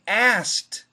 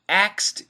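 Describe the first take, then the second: First: It is said fast without the K sound. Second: It sounds like the word axed. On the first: "if we say it fast, we drop the K" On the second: "it actually sounds like A X E D"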